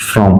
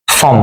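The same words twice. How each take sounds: First: ফ্রম as "frawm", r right after the f; pronunciation demo. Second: ফর্ম as "fawm", no r heard after the f; pronunciation demo. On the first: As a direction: model ফ্রম with an fr cluster before the vowel. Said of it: "এটার উচ্চারণ হচ্ছে এরকম করে". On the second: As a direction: model ফর্ম as one syllable, vowel straight after f. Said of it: "এর উচ্চারণ করবে এইভাবে". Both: Shown as a demonstration.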